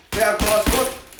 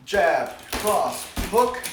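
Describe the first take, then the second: First: Jab, cross, hook fired off fast and loud; quick combo call. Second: Jab... cross... hook, each loud and separate; slowed down. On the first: Full-speed take before slowed demo. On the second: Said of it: "Let me slow it down again". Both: Shown as a demonstration.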